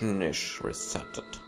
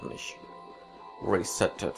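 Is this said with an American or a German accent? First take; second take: German; American. First: It is spoken with a plain German accent. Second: It is spoken with an American accent.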